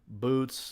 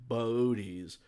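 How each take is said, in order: First: The two o's merge into one vowel. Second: The two o's are said as separate vowels. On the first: The speaker calls it wrong. "it's not Bodies or Boots or whatever" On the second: The speaker calls it right. "umlaut normally over the second O"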